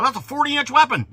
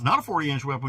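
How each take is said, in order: First: High, loud mocking quote; loud sneering imitation. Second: Said in the usual way. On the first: Mocking everybody's claim.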